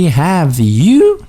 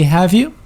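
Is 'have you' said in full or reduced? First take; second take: full; reduced. First: Have you is said fully and carefully. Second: Have you is reduced and blended together. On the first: The speaker calls it wrong. "we never say" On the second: The speaker calls it right. "we say"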